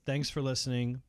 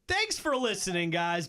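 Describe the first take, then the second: First: It is said flatly, without enthusiasm. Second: It is said with lively, salesy enthusiasm.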